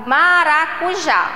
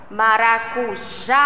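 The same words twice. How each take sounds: First: Said in the usual way. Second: "Maracujá" slowly, with a long held JÁ at the end; stress on final JÁ. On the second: Shown as a demonstration. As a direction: stretch the last syllable of "Maracujá". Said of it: "A sílaba tônica é o".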